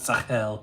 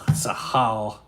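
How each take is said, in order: First: The last syllable is said with an 'eh' vowel. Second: The last syllable is said with an 'ah' vowel. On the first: The speaker calls it wrong. "not Sahel" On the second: The speaker calls it right. "That's an A L. Sahal. So you should say it"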